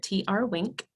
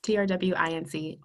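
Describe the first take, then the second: First: T R Wink, the last part said as the word "wink"; handle said as word. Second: T R W I N C, read letter by letter; spelled out. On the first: Guest tells listeners how she pronounces her handle, "T R Wink" said as a word. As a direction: say "T R Wink", ending in one syllable like wink. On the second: Guest gives listeners her social handle, "T R W I N C" spelled letter by letter. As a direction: spell "T R W I N C" as six separate letter names. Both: Shown as a demonstration. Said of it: "I like to pronounce it".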